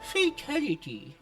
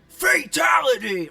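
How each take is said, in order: First: It is said flatly, without energy. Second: It is said loudly and with energy.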